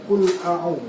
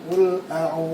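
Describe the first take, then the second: Both takes have the same delivery.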